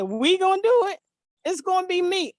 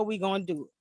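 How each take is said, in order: First: High, loud protest in the son's voice; imitated incredulous son. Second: Said in the usual way. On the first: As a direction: throw it back in startled disbelief. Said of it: "He said". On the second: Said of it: "And I said".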